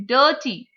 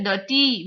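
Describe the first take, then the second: First: DIRTY as DIR-ty, weight on the start; first-syllable stress. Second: DIRTY as dir-TEE, weight on the end; wrong second-syllable stress. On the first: Teacher showing how we say it, first syllable stressed. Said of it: "we say dirty". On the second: Teacher showing what not to say, second syllable stressed. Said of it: "We don't say dirty". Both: Shown as a demonstration.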